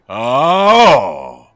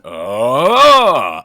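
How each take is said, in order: First: The pitch falls at the end. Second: The pitch rises at the end.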